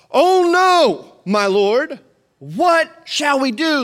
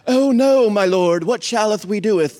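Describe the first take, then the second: First: High, loud hammed-up panic; overdramatic reading. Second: Loud, stagey King James voice; mock old-English drama. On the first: Preacher hamming up the servant's line for the congregation. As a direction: ham it up like a bad stage actor. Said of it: "I read that horribly because that's in no way what it sounded like". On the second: Preacher mocking a stiff Bible reading, hammed-up and loud. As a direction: overplay it like Shakespeare. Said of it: "That's, that's not how it sounded". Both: Shown as a demonstration.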